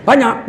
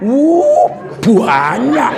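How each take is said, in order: First: Said in the usual way. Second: "banyak" stretched with an added u, as "buanyak"; Javanese "buanyak". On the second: Shown as a demonstration. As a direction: exclaim "Wuh, banyak" with the drawn-out Javanese u. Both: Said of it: "Itu nggak banyak itu kalau orang Jawa".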